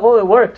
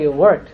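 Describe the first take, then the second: First: Light mock-surprised "Oh, it worked"; pleasantly surprised. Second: Lower, dry "It worked" as if obviously; teacher mocking the surprise with a dry echo; deadpan irony. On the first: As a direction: say "it worked" as if it were news. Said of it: "people are like". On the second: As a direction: throw back "It worked" knowingly, no surprise. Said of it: "I was like".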